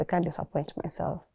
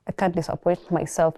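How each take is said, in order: First: Much softer, almost under her breath; quiet repeat. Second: Said in the usual way. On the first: Real, not acted. Repeating the vow to herself alone, much softer. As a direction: drop it down to a private murmur.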